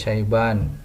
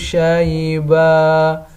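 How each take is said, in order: First: The word ends with an n sound. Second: The word ends on a lengthened vowel. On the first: The speaker calls it wrong. "tidak dibaca syaiban" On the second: The speaker calls it right. "dibaca menjadi satu tanda fathah kemudian dipanjangkan"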